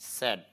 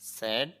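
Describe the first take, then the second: The two takes are said the same way.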